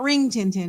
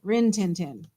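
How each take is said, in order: First: The first word ends with an 'ng' sound. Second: The first word ends with a plain 'n' sound. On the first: The speaker calls it wrong. "That's not Ring Tin Tin" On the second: The speaker calls it right. "It's just Rin"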